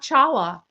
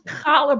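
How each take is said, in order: First: It starts with a plain ch sound. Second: It starts with a harsh, throaty rasp. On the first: The speaker calls it wrong. "It's not challah" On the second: The speaker calls it right. "It's challah bread"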